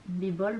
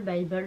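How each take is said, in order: First: Bible said "bee-bol", short French i; French-style pronunciation. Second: Bible said "bye-bol", English long i; English-style pronunciation. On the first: Vlogger unsure how it is pronounced, Bible said as "bibol". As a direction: say Bible with "bi" at the start. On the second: Vlogger unsure how it is pronounced, Bible said as "baïbol". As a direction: say Bible with "baï" at the start. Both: Shown as a demonstration. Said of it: "je ne sais pas comment ça se prononce".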